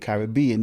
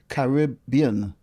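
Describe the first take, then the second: First: The stress falls on the 'bean' part. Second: The stress falls on the 'rib' part. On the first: The name follows its spelling ending in 'bean'. "In North America, they say Caribbean because it's B E A N" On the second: The name comes from the Carib people. "That's why that pronunciation is used there"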